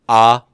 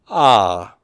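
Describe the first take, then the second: First: The pitch stays level. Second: The pitch falls. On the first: "not just ah" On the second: "a grave accent then would be falling tone"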